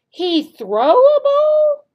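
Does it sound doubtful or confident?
doubtful. It sounds doubtful and questioning.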